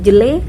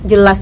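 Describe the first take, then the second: First: The word ends with an e sound. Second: The word ends with an as sound.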